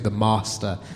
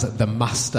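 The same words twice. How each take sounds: First: Master is said in a standard southern accent. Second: Master is said in a northern English accent. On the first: "as opposed to" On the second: "It's my northernness"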